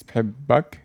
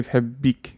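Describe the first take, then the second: First: بحبك said as bhibbak, ending in -ak for a man; Arabic "I love you" to a man; male form. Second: بحبك said as bhabbik, ending in -ik for a woman; Arabic "I love you" to a woman; female form. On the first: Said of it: "This for a guy". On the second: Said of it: "if I want to say to her". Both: Shown as a demonstration.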